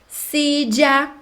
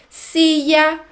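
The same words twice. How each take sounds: The two takes are said the same way.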